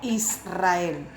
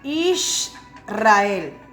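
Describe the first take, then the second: First: The middle consonant is an 's' sound. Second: The middle consonant is an 'sh' sound. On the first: This is the modern pronunciation. The speaker calls it wrong. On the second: This is the ancient pronunciation. The speaker calls it right. "antiguamente se decía"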